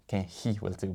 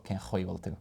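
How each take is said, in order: First: "hí" with a light, soft h-like slender ch. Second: "chuí" with a throaty, rounded ch; broad guttural ch in "chuí". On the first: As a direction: say "hí" as a thin hee, no throat rasp. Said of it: "if there was a C H presented I". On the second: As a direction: rasp the ch of "chuí" at the back, gliding like "khwee". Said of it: "it's not, it's broad". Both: Shown as a demonstration.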